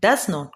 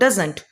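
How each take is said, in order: First: It is said as two full words. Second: It is said as one contracted word.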